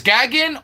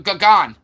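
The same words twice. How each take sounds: First: "Gagin" rhyming with "wagon", short a; pronunciation GAG-in. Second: "Gagon" with open ah in both syllables; pronunciation gah-GON. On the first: Streamer asking chat again, "Gagin" as GAG-in. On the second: Streamer asking chat which name, "Gagon" as gah-GON. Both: Shown as a demonstration. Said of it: "is Gagin or G-, Gagon".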